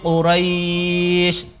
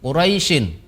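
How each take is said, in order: First: The last syllable is held long with no vowel after. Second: The word ends with a short added vowel. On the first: The reciter stops at this word. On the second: The reciter continues to the next verse.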